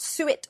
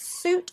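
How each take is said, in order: First: It sounds like two syllables, suet. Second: It sounds like one syllable, suit. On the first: The speaker calls it wrong. "not suet" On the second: The speaker calls it right. "It's suit"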